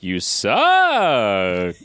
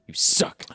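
First: It is said with exaggerated enunciation and range. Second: It is said flatly with little pitch range. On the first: The speaker calls it right. "Is that better? Is that a better vocal?" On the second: The speaker calls it wrong. "No vocal range on that"

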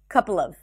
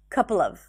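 The two takes are said the same way.

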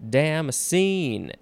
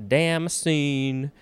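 Both takes have the same delivery.

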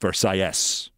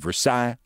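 First: It is pronounced the Miami way. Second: It is pronounced the French way. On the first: "In Miami, it's" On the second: "In France, it's"

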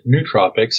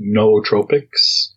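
First: The first syllable sounds like 'new'. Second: The first syllable sounds like 'no'. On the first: "I pronounce it nootropics" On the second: "some people pronounce it nootropics, like Noah in the Ark"

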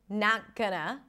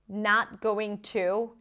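First: The words 'going to' are reduced to 'gonna'. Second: The words 'going to' are said in full. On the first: "he's also reducing a lot of things" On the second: "he's also reducing a lot of things"

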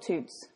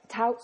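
First: The vowel sounds like the one in 'boot'. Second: The vowel sounds like the one in 'out'. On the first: "Touts or toots?" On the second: "Touts or toots?"

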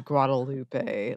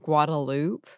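First: It is pronounced the standard expected way. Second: It is pronounced the local Austin way. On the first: This is how the name is expected to be said. "it most certainly should be Guadalupe" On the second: This is how the street name is said locally. "Austin has the Guadalupe?"

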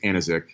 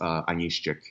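First: The surname is said with an Americanized pronunciation. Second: The surname is said with a Polish pronunciation. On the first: "the Americanized you know, kind of version of the name is" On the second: "the Polish, you know, Polish Belarusian, it's"

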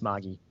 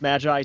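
First: It is said with a Japanese-style pronunciation. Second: It is said with an English-style pronunciation. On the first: The speaker calls it right. "it's a Japanese pronunciation" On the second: The speaker calls it wrong. "I thought it was Magi too, but no"

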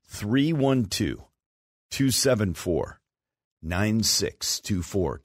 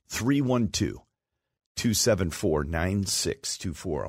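First: The number is read slowly. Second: The number is read at normal speed.

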